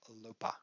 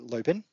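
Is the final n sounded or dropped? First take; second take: dropped; sounded. First: The ending is a weak vowel without n. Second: The ending is said with a clear final n. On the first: "But the pronunciation in Dutch is lopa" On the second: "in English, that would be lopen"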